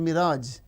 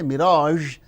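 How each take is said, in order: First: The final consonant is a plain 'z' sound. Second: The final consonant is a soft 'zh' sound. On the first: "we say mirage" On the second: "we don't say mirage"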